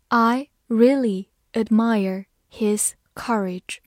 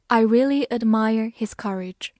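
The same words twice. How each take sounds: First: Slow clear reading of I really admire his courage; slow model reading. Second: Said in the usual way. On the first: Shown as a demonstration. Teacher to students, slowly modelling the sentence. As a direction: read it slowly for the class to follow. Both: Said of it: "造个句子".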